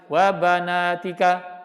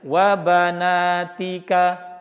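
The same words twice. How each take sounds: First: A vowel is hurried and cut short. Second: It is said slowly and relaxed. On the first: The speaker calls it wrong. "Jadi jangan ... itu ikhtilas" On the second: The speaker calls it right. "Jadi santai aja"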